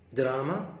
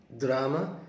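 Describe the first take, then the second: No difference in how they are said.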